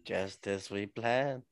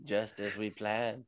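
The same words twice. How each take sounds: First: A lightly voiced schemer, even slower; slow villain gloat. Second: A lightly voiced schemer, slow and low; slow villain gloat. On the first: Mock villain repeating the corner gloat. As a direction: savour it like a cartoon villain. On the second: Mock villain as Justine Kish gloats in her corner. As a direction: gloat slowly like a plotting villain. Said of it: "Justine Kish is there like".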